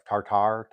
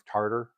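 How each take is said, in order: First: "tartar" said as TAR-TAR, both syllables full with a hard t; "tartar" with the second half spoken as the word "tar"; second try at tartar. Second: "tartar" run together, the end a quick flat "der"; first try at tartar. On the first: Correcting herself on stream, unsure how to say it, second careful try. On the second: Reading a Scottish recipe on stream, unsure how to say it, first try. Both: Real, not acted. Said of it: "tartar, however you say it".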